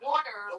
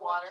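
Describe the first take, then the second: First: It is said in a Philadelphia accent. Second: It is said in a standard accent. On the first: The speaker calls it right. "it's water for those of us from Philly" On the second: The speaker calls it wrong. "not water"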